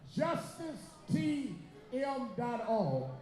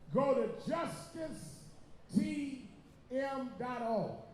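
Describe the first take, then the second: First: It is said at a quick, normal pace. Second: It is said slowly and deliberately.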